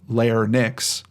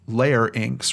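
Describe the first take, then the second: First: The y vowel comes after the n sound. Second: The y vowel comes before the n sound. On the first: The speaker calls it wrong. "rather than larynx" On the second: The speaker calls it right. "pronounced larynx, larynx rather than"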